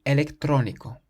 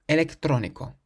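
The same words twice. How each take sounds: Both takes have the same delivery.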